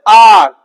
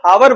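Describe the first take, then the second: First: The word starts directly with a vowel sound. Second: The word starts with a clear h sound. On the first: The speaker calls it right. "ये हो जाता है silent" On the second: The speaker calls it wrong. "कुछ लोग इसको हावर बोलते हैं, हावर नहीं होता"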